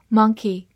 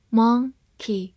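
First: Said in the usual way. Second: "monkey" split as mon, key with a pause; "monkey" broken up for learners; syllable by syllable. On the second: Shown as a demonstration. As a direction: say "monkey" slowly in two separate syllables. Teacher breaks word into syllables.

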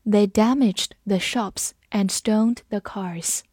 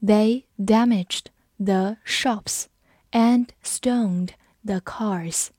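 First: Said in the usual way. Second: Word by word, spaced out slowly; slow reading. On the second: Shown as a demonstration. Teacher models the sentence for learners, slow reading. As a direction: read it very slowly with gaps between words. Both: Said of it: "我们慢读一遍".

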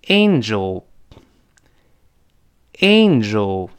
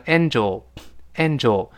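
First: "angel" stretched slowly as AYN-jel; correct angel. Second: "angel" as an-jo, no ay glide; Chinese-style angel. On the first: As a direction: hold ay plus n at the start of "angel". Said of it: "前面是发an，a再加鼻音". (“angel”慢读，前面ei加鼻音) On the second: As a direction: say "angel" like Mandarin 安粥. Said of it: "这是中式发音了". (把“angel”读成中式“安粥”) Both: Shown as a demonstration.

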